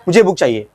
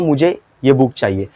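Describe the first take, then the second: First: The words run together without any pause. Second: There is a short pause after the first word. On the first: The speaker calls it wrong. "क्या मैंने ऐसे बोला ... ऐसा बोला नहीं" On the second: The speaker calls it right. "तो मैंने मुझे बोलने के बाद थोड़ा पॉज लिया, बीच में रुका"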